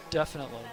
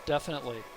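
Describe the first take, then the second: No difference in how they are said.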